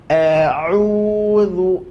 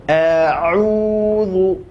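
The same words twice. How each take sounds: No difference in how they are said.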